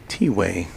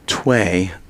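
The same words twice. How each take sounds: First: It is said as the letter T, then way. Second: It is said as one blended syllable, tway. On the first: The speaker calls it right. "T apostrophe way" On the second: The speaker calls it wrong. "I was calling it earlier Tway, but I was uninformed"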